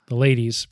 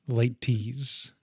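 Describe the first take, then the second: First: The middle consonant is a soft D-like sound. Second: The middle consonant is a clear T sound. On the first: The speaker calls it wrong. "it sounds like ladies" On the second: The speaker calls it right. "we have to really pronounce the T"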